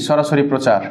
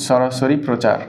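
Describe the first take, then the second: No difference in how they are said.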